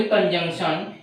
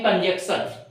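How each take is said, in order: First: कंजंक्शन with a nasal "jung" in the middle; कंजंक्शन keeping the n before the final syllable; correct pronunciation demo. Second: कंजंक्शन as "kan-jek-sat", nasal missing; कंजंक्शन mispronounced "kanjeksan"; common mispronunciation demo. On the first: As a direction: say कंजंक्शन as "kan-jung-shan". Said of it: "इसको बोले कंजंक्शन". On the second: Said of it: "बहुत लोग बोलते हैं". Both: Shown as a demonstration.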